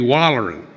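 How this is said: The word is said in a Southern Alabama accent. "if I were way back home"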